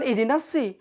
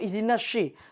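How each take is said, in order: First: The s is a plain thin s. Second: The s sounds like sh. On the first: "Bukan ihdinas si" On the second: "atau ihdinas syi"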